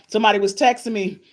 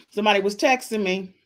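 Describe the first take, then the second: No difference in how they are said.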